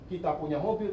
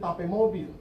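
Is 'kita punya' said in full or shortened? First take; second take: full; shortened. First: The words kita punya are said in full. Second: The words kita punya are shortened to ta pe.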